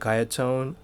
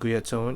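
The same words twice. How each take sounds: First: The name is said with an English pronunciation. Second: The name is said with a Japanese pronunciation. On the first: "you guys might pronounce it" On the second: "in Japan we at least pronounce it"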